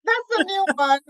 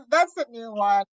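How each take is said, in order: First: Laughing through the words; amused laugh on the line. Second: Said in the usual way. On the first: Real, not acted. Laughing at the Jafaican nickname.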